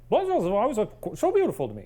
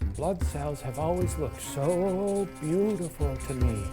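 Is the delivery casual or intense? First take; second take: casual; intense. First: It is said in a calm, casual way. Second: It is said in an intense, creepy way. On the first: The speaker calls it right. "He's probably like" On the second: The speaker calls it wrong. "that sort of level of intensity"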